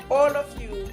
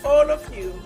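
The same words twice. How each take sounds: The two takes are said the same way.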